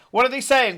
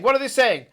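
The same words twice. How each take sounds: First: Loud and high, stress on saying; urgent shout. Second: Loud and high, stress on what; urgent shout. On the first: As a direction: push hard on "saying". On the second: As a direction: punch "what" in alarm. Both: Acted. Navigator shouts urgently for tieflings.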